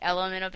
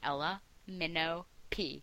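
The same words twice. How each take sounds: First: The name runs together without breaks. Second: The name is split into separate parts. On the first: It sounds like the letters L M N O P. "it's a play on... obviously" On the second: The separate words of the title are clear. "I have to split it up"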